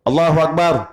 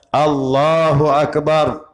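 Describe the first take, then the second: First: Every vowel in the phrase is kept short. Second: The vowel in "Allah" is drawn out longer. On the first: The speaker calls it wrong. "Yang tak boleh, ... pendek semua" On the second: The speaker calls it right. "Ada panjang sedikit Allahnya tu"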